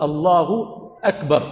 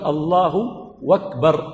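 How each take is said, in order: First: Said in the usual way. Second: "أكبر" said with a w in front, "وَكبر"; "Allahu, wakbar", no glottal stop on "أكبر"; hamza dropped. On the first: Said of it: "أي بدل أن يقول". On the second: Shown as a demonstration. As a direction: replace the opening stop of "أكبر" with w. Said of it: "فيحذف ماذا؟".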